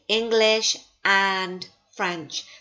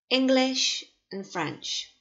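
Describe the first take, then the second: First: The word 'and' is said full and clear. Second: The word 'and' is weakened and reduced. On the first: The speaker calls it wrong. "I don't say English and French. There's not equal emphasis there" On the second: The speaker calls it right. "we often weaken little words like uh, and can become un"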